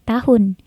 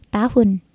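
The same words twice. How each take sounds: The two takes are said the same way.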